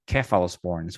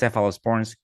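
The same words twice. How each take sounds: First: The word begins with a K sound. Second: The word begins with an S sound.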